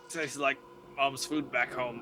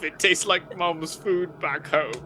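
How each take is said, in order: First: It is said in the speaker's ordinary accent. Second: It is said in a put-on British accent. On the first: The speaker calls it wrong. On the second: The speaker calls it right.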